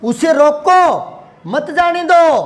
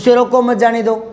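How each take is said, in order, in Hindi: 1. "roko" शब्द के बाद विराम है। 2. वाक्यांश बिना किसी विराम के एक साथ चलता है। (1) "और यूं बोल लूं" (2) "और कहीं नहीं लगाया"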